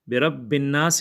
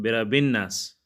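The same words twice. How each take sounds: First: The b sound is held doubled. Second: The b sound is said single. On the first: The speaker calls it right. "यहाँ पर शद है, दो शद है" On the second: The speaker calls it wrong. "लेकिन यहाँ पर लोग क्या पढ़ते हैं"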